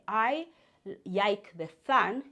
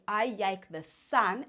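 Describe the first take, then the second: First: The S in sun is lisped, tongue showing. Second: The S in sun is a clear hiss. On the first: The speaker calls it wrong. "I saw your tongue" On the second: The speaker calls it right. "and it's correct"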